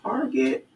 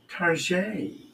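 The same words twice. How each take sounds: First: It is said with plain English pronunciation. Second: It is said with French-style pronunciation.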